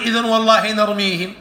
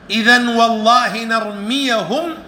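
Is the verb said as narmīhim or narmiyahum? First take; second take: narmīhim; narmiyahum. First: The verb has a long i and no a-vowel. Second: The verb has an a-vowel after the y. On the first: The verb is in the indicative mood. The speaker calls it wrong. "لا تقول إذن والله نرميهم" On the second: The verb is in the subjunctive mood. The speaker calls it right. "وإنما تقول"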